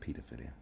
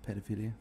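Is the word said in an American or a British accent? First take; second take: British; American. First: The word is said in a British accent. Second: The word is said in an American accent. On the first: "We say pedophilia" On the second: "That's how the Americans say it"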